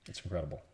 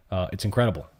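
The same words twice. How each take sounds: First: "It's incredible" dropped to a hushed, lower murmur; awed murmur. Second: Said in the usual way. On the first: Real, not acted. Quietly echoing himself to his viewers, hushed awe. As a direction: let "incredible" fall away almost under the breath.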